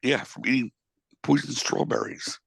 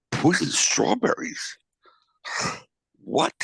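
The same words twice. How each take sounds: First: Said in the usual way. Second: Slow, breathy, disbelieving "Poisoned strawberries?"; incredulous echo. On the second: Retold or imitated. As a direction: repeat it as if you can't believe your ears. Stranger's shocked reply in the joke.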